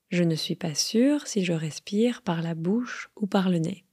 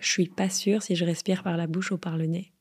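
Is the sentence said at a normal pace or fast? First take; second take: normal; fast. First: It is said at a careful, normal pace. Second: It is said quickly, with words run together.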